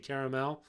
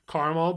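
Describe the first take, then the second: First: The word is pronounced in a fancier way. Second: The word is pronounced in a plain, everyday way. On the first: The speaker uses this to sound refined. "if I want to be fancy, I say caramel" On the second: This is the speaker's usual pronunciation. "I think I say caramel"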